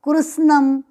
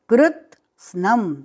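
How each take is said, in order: First: The word is said without the t sound. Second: The word is said with a t sound. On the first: The speaker calls it wrong. "ये कृष्णम नहीं है" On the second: The speaker calls it right. "आधा त भी है"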